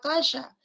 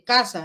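First: The s is made at the hard palate. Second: The s is made at the gum ridge. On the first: "ese sería la S palatal" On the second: "no dicen casa"

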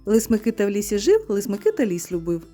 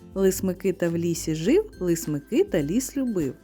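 First: It is said at a fast pace. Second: It is said at a slow, careful pace.

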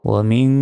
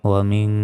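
Both takes have the same delivery.

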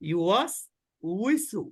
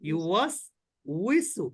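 No difference in how they are said.

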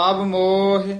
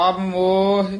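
Both takes have the same delivery.

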